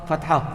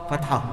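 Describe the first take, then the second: Both takes have the same delivery.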